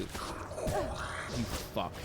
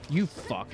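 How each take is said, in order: First: Breathy whispered "You fuck" under the breath; whispered curse. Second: Said in the usual way. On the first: Real, not acted. Gamer whispering a curse at the enemies. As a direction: hiss "You fuck" at the screen.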